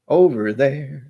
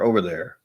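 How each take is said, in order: First: OVER THERE drawn out slowly, louder and higher; slow, raised, hammed-up "Over there"; exaggerated repeat. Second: Said in the usual way. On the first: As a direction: stretch both words of "Over there" in a playful put-on voice.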